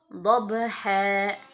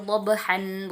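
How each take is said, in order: First: The word ends on a lengthened vowel. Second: The word ends with an added n sound. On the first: The speaker calls it right. "tapi dhabha" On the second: The speaker calls it wrong. "Jadi bukan wal adiyati dhabhan, bukan seperti itu"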